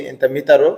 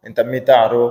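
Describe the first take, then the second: First: ইনতা মিতারো said simply, no throaty sounds; plain easy ইনতা মিতারো, as a worker speaks it; simple plain Arabic. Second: ইনতা মিতারো with sounds pushed from the throat; throaty Arabic pronunciation. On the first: Explaining his own simple way to fellow workers in Saudi, plainly. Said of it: "আমি যেভাবে বলছি". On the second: Showing viewers how others say it, with throaty sounds. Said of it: "গলার যে একটা উচ্চারণ". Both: Shown as a demonstration.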